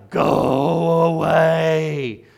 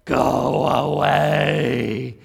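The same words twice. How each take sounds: First: Very loud, higher, long-drawn witchy holler; louder witchy yell. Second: Loud, drawn-out witchy yell; witchy smoke-infested voice. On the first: Smoker yells at the woman who sat down, full witchy holler. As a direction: yell it even louder, stretching every word. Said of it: "So she yelled out louder". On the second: Mean old smoker warns off a visitor, witchy slow yell. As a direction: stretch it out slowly in a smoker's witch voice. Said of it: "witchy, smoke-infested voice". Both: Retold or imitated.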